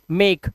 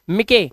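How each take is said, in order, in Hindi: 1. शब्द k पर समाप्त होता है, उसके बाद कोई स्वर नहीं। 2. अंतिम k के बाद एक स्वर ध्वनि का उच्चारण होता है।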